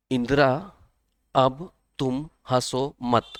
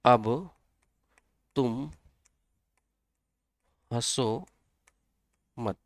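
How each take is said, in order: First: Drawn out "अब तुम हंसो मत" spoken slowly; slow mnemonic. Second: "अब" "तुम" "हंसो" "मत" each after a long pause; word by word. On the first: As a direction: stretch each word of "अब तुम हंसो मत". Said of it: "इसको ऐसे भी याद कर सकते हैं". ("अब तुम हंसो मत" को बहुत धीरे, खींचकर बोलें) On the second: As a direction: drop each word in slowly for memorising. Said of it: "यहाँ से याद कर सकते हो". ("अब तुम हंसो मत" — हर शब्द के बीच लंबा विराम) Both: Shown as a demonstration.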